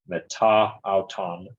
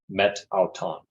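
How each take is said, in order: First: The first word keeps its final vowel. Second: The first word drops its final vowel. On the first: "so this would be meta auton" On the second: "the final vowel of the preposition may be dropped"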